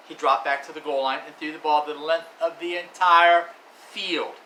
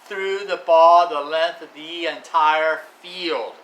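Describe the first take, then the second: First: Said in the usual way. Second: Louder and slow, each word leaned on; emphasized, slow. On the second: Shown as a demonstration. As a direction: spell out the whole throw slowly and loudly. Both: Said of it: "Uncle Ronnie emphasized".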